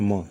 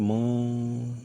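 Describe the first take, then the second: First: The sound is short and plain. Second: The sound is stretched out long. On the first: This is how we normally say it. "तो हम कैसे बोले म" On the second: This is how they said it, which felt strange. "Tuning कहने का मतलब ये कि लंबा"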